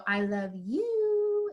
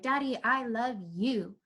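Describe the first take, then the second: First: High, long drawn-out last word; escalating sweet declaration. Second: Put-on slow, simple little-kid affection; sweet declaration. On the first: Retold or imitated. Daughter telling her dad, sing-song and drawn out. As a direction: imitate a child stretching "you" up high. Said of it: "And then she'd go". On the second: Daughter telling her dad, plain sweet affection. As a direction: say it slowly and tenderly, like a child. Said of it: "she was telling her dad".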